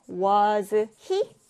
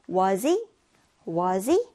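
First: WAS HE cut into two separate words, a full z then a clear h. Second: WAS HE run together as "wuh-zee", h dropped; linked pronunciation. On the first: Teacher showing learners the hard way, disconnected. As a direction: say "was he" slowly, one word at a time. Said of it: "뚝뚝 끊어서 발음하면 좀 어렵단 말이죠". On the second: Teacher modelling the easy way for learners, linked. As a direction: link "was he" with a z sound into the vowel. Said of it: "이거 이어서 발음해주면 됩니다". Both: Shown as a demonstration.

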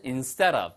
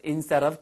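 First: "instead of" run together as "insteadav" with a tapped D; fast linked pronunciation. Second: "instead of" word by word, clear D and separate "of"; careful full pronunciation. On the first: Teacher showing fast speech, "instead of" linked with a flapped D. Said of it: "빨리 하면은". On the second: Teacher showing the textbook form, "instead of" fully articulated. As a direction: spell out the sounds of "instead of" slowly and distinctly. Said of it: "발음은 instead of지만 빨리 하면은". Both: Shown as a demonstration.

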